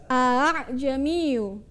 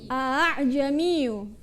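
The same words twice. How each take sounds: Both takes have the same delivery.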